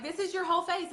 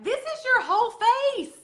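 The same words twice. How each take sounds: First: Said in the usual way. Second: Much higher and louder, slow, showy reveal; excited reveal. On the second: Retold or imitated. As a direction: present it like a magic trick. Showing the compact to customer.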